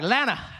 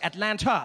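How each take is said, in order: First: The word is shrunk to two short syllables. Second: The T in the middle is clearly pronounced. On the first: "By the time I leave, I'll just be like" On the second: "when I got here, every time I said it, I would say Atlanta"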